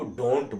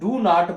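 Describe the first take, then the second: First: It is said as one short contracted word. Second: It is said as two separate full words. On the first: "इसको डोंट बोलते हैं।" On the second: "इसको डू नॉट बोलते हैं"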